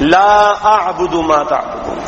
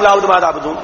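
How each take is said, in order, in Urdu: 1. 'la' کی آواز لمبی کھینچی جاتی ہے۔ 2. 'la' کی آواز چھوٹی اور تیز ہے۔ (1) "یہ تو ہوا ٹھیک" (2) "اگر نہ کھینچا جائے لا کو"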